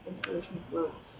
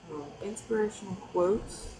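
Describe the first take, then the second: First: "Inspirational quotes." stated with a falling tune, a bit softer. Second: "inspirational quotes?" asked with a rising, unsure tune; questioning tone. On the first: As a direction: announce "Inspirational quotes." firmly as a topic. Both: Shown as a demonstration. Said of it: "No, just kidding".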